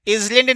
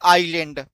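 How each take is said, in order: First: The s is pronounced in the word. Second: The s is silent in the word. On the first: The speaker calls it wrong. "इसलैंड नहीं बोलते हैं" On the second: The speaker calls it right. "इसको पढ़ते हैं आइलैंड"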